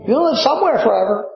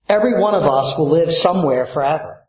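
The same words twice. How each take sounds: First: "somewhere" pressed higher, said fast; "somewhere" höher und betont, rasch wiederholt; emphatic repeat. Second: Said in the usual way. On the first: Shown as a demonstration.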